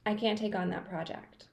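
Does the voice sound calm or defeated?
calm. It sounds calm, balanced and assertive. The speaker sets a boundary in a healthy way. The speaker calls it right. "The Goldilocks, the healthy balance"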